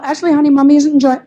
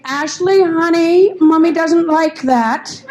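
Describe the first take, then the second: First: Pleading mommy voice; mother reasoning with her toddler, pleading. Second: Syrupy, slow mommy voice; a mother coaxing her screaming toddler, syrupy; sweet mother. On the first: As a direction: gently reason with the child. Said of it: "the kind of parent that tries to reason". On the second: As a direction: coo at the child slowly. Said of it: "I heard the mother say". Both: Retold or imitated.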